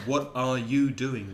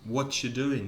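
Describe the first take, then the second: First: Every word, including 'are', is fully pronounced. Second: The word 'are' is dropped and run together.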